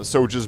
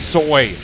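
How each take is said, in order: First: The J is sounded as a J. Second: The J is sounded as a Y. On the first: "don't say it that way" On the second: "Say them soy, like you're Swedish. The J in Jordan sounds like a Y"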